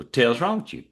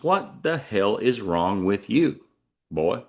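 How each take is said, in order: First: "What the hell's" squashed into "tail's"; run-together Texas phrase. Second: "What the hell is" slow, each word separate; spelled-out translation. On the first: Ranchers asking a kid, "What the hell's" run together Texas-style. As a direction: slur "What the hell's" into one drawled word, like "tail's". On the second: Translating Texan for outsiders, "What the hell is" slowly spelled out. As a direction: space out "What the hell is wrong with you" deliberately. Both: Shown as a demonstration. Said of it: "what that means is".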